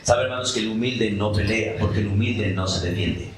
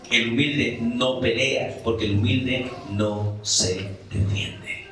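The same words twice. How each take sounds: First: Said in the usual way. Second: Slow, each word of "El humilde no pelea" weighed, "humilde" stressed; slow emphatic repeat. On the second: Shown as a demonstration. Preacher repeats to the congregation, slow and deliberate. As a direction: lean on "humilde" and let it sink in slowly.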